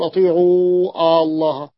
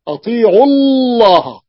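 First: أطيعوا الله with the و held long, atiʿuu allah; wrong long vowel. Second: أطيعوا الله with the و unsaid, atiʿu-llah; dropped long vowel. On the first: Teacher showing students the wrong recitation, long vowel kept. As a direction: say أطيعوا الله keeping a full long u before الله. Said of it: "لا نقول". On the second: Teacher reciting the verse the correct way for students. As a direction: say أطيعوا الله running into the doubled l of الله. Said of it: "لا نقول أطيعوا الله". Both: Shown as a demonstration.

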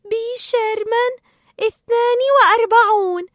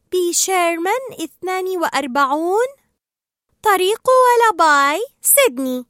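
First: Very high, elated recital; excited reciting. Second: Higher, sing-out recitation, slowing; reciting an address. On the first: Dory delights in her memory, excited reciting. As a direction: repeat it proudly in a high, thrilled voice. Dory thrilled, repeats the address. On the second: Dory answers Marlin from memory, reciting. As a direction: recite it brightly, stretching the road name. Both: Acted.

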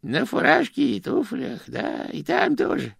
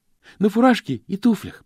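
First: Put-on old man echoes the phrase, then slows, hedging; reluctant old Grosh. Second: Put-on young postman chiming in, slightly higher and louder; eager Stanley. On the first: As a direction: stall while answering the boy. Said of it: "ответил он". (Грош неохотно повторяет и медлит) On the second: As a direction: pick up the old man's words eagerly. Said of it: "подхватил Стэнли". (Стэнли с готовностью подхватывает)

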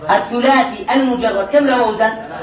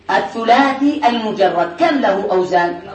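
Both takes have the same delivery.

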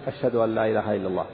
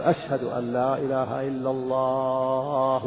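First: Said in the usual way. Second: Drawn-out call. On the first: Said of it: "يقول مثلًا الشهادة الأولى". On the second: Shown as a demonstration. Scholar showing students a muezzin overstretching the second line, slow and drawn out. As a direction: stretch every syllable of أشهد أن لا إله إلا الله slowly like a long call to prayer. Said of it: "ويطيل الثانية أطول من الأولى".

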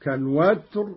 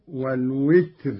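First: Said in the usual way. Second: والوتر said as "wal-witr", with i; short i after the w of الوتر; variant vowel. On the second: Shown as a demonstration. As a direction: say والوتر with witr, not watr. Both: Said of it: "وهي لغة كالوتر والوتر".

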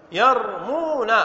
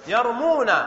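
First: يرمون said slowly and clearly, falling; slow demo. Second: Said in the usual way. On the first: Shown as a demonstration. Teacher to class, slow careful يرمون. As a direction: stretch يرمون out for dictation. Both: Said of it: "فنقول ماذا".

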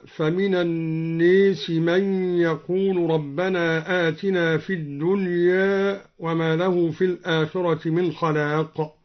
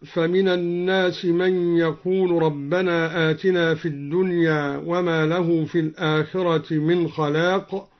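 First: الناس as "an-nees", الدنيا ending near "eh"; imala and taqlil. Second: Said in the usual way. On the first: Shown as a demonstration. Teacher showing al-Duri's reading, "nees" for الناس, "dunyeh" for الدنيا. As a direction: tilt الناس to "ee", الدنيا slightly to "eh". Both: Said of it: "أمال لفظ الناس وقلل لفظ الدنيا".

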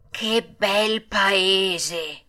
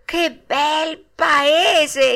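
First: Very slow, dreamy exclamation at normal volume; overjoyed, drooling delight. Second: High, very slow, loud marvelling; enraptured exclamation. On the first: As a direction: linger blissfully on every word. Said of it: "sputando dalla soverchia consolazione". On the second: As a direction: savour it with rising wonder, stretched out. Longing for the dreamed land. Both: A narrator's reading.

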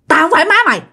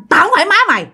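First: High, harsh quick snarl of a strange woman; menacing ghost woman voice; fierce old woman. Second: Much higher, fast hostile snap; menacing ghost woman voice; fierce old woman. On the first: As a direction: spit it out fast and hostile. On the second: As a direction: bite it off fast like an angry stranger. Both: Retold or imitated. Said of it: "cái giọng bà rất là hung dữ, nói rất là nhanh".

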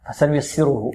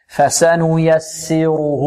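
First: فسنيسره rattled off softly with clipped short vowels; faulty quick فسنيسره, vowels snatched. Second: فسنيسره recited slowly, each vowel given its full length; measured, correct tajweed فسنيسره. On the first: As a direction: rush فسنيسره, cheating each vowel of its length. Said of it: "نحذر من اختلاس الحركات هنا". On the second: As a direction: draw out فسنيسره evenly, no vowel snatched. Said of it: "لا". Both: Shown as a demonstration.

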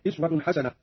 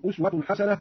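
First: أسوة said "iswa", with i at the start; variant first vowel. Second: Said in the usual way. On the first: Shown as a demonstration. Teacher giving the alternative reading, أسوة as "iswa". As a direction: open أسوة on an i sound, not u. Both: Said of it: "يقرأ أيضًا".

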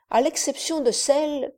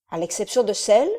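First: Said in the usual way. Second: Celle rising, quick puzzled echo; questioning echo. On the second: Acted. Count echoing the servant's words, rising on celle. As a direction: throw "celle" back up as a question. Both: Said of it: "répétai-je".

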